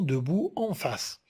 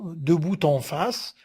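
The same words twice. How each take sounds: First: The final t is silent, no link made. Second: The final t links into the next word. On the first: "on peut la négliger et dire seulement" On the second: "On peut la faire"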